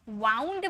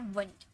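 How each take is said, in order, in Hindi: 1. स्वर 'ow' जैसा सुनाई देता है। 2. स्वर 'oo' जैसा सुनाई देता है। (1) "इसे वाउंड मत पढ़िएगा" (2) "ये है वुंड।"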